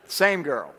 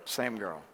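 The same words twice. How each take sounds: First: Said in the usual way. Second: Dropped, softer and lower repeat; quiet aside. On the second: Shown as a demonstration. Echoing the punchline to the crowd, quiet and low. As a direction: let the echo fall away under your breath.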